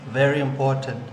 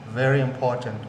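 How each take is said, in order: No difference in how they are said.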